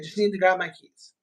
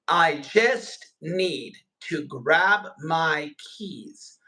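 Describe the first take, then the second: First: It is said quickly with the words run together. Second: It is said slowly with each word kept separate. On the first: It is natural everyday speech. "Do you hear how I said that without pausing, without thinking too much about it?" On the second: It is made easy for a learner to follow. "So I'm breaking everything down"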